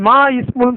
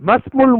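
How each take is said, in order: First: The 'i' of 'ismul' is pronounced separately. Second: The 'i' is dropped, linking into 'masmul'. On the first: The speaker calls it wrong. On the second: The speaker calls it right.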